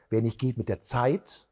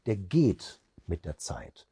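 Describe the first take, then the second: First: ZEIT lifted at the end, left open; stress on ZEIT. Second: GEHT set apart, slow falling close; stress on GEHT. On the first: Trainer demonstrates emphasis to listeners, stress on ZEIT. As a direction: set up the saying, lean on ZEIT. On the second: Trainer shows identical words stressed differently, stress on GEHT. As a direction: punch GEHT, let the rest drop away. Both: Shown as a demonstration. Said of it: "unterschiedlich betont".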